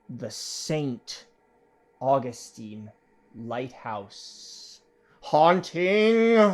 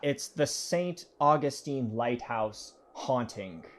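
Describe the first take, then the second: First: It is said slowly and dramatically. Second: It is said at normal speed.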